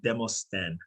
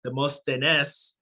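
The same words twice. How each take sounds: First: "Demosthène" in French, lower, ending in "-stenn"; French pronunciation. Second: "Demosthenes" slowly, with its final "-es" sounded; Greek name form. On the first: Guest teaching host his surname, "Demosthène" in French, "day-moss-TENN". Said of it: "pronounced in French". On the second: Guest explaining his name's origin, "Demosthenes" slowly with the Greek "-es" ending. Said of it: "which is a historical Greek name". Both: Shown as a demonstration.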